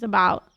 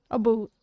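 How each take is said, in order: First: Said in the usual way. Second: "A boot" with oo where ow belongs; overdone Canadian "A boot", rhyming with hoot; exaggerated Canadian vowel. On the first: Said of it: "A boot versus about". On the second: Shown as a demonstration. Streamer comparing accents for viewers, exaggerated "A boot" with oo. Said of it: "That's exaggerated, though".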